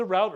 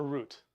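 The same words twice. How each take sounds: First: "route" rhyming with "out"; route as "rowt". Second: "route" rhyming with "boot"; route as "root". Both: Shown as a demonstration. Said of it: "is it route or route".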